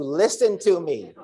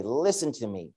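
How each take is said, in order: First: High, slow, laughing plea; half-laughing, exasperated call to the bird; slow, high, laughing yell at a bird. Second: Soft, tender invitation; much softer, tender voice of the Lord; the Lord's gentle call. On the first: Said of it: "I'm screaming at a bird". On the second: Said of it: "He's saying". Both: Retold or imitated.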